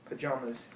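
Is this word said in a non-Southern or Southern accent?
non-Southern. Said in a non-Southern accent. "how I say them"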